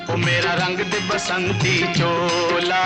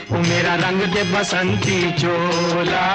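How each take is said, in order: Both takes have the same delivery.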